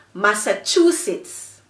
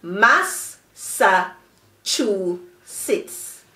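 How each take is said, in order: First: "Massachusetts" as one joined word; connected whole-word "Massachusetts"; blended together. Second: "mas, sa, chu, sits" as four separate beats; slowly broken-up teacher's "mas, sa, chu, sits"; syllable by syllable. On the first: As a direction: run "Massachusetts" together without pauses. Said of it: "Blend them quickly together". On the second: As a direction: pause after each of "mas, sa, chu, sits". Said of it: "has four syllables". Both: Shown as a demonstration.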